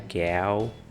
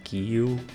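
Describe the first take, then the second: First: The vowel is an open 'a' sound. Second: The vowel is an 'i' sound. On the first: "não é gal" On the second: "não é gil"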